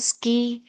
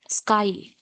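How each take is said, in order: First: The vowel is pronounced like 'ee'. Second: The vowel is pronounced like 'eye'. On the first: The speaker calls it wrong. "Why can't we say ski? Because it is wrong" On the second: The speaker calls it right. "you must pronounce it as sky only"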